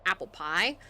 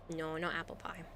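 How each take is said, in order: First: Said in the usual way. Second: Not 加重, no 轻说; firm no on "not"; stress on not. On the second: Real, not acted.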